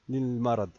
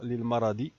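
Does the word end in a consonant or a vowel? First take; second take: consonant; vowel. First: It ends on the bare final consonant. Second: It ends with a short final i vowel. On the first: "ne pas prononcer ce, cette kesra" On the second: "On peut dire للمرض"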